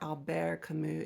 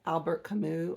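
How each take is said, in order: First: The name is said with a careful French pronunciation. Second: The name is said with an everyday English pronunciation.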